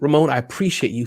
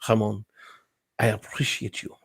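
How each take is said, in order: First: It is said in his own plain accent. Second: It is said in a put-on foreign accent. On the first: "Forget the accent" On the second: "That's kind of a Spanish accent, but"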